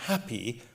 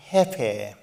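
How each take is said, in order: First: Said in the usual way. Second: Happy said with a tensed, mock posh vowel; happy tensing. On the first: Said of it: "she is now happy". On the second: Shown as a demonstration. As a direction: stretch happy through a tight, grinning mouth. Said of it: "To say happy, your mouth must tense".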